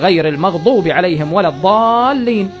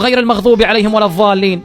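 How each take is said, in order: First: The emphatic consonant is a d-like stop. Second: The emphatic consonant is a th-like fricative. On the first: The speaker calls it right. "لازم تقول" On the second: The speaker calls it wrong. "مو ضاء، مو غير المغضوب عليهم ولا الضالين مثل ما كثير من الناس يقول، هاي غلط"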